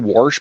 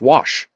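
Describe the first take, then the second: First: The word is said with an added R sound. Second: The word is said with no R sound. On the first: The speaker calls it wrong. "people say wash" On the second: The speaker calls it right. "there's no R"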